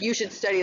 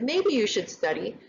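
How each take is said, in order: First: Flat, falling know-it-all order; bossy advice. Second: Gentle, tentative advice with a rising end; soft suggestion. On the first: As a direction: tell them what to do as if you know best. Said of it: "I know everything and you don't know anything". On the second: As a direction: offer it as a polite maybe, not an order. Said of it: "respectful in a way". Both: Shown as a demonstration.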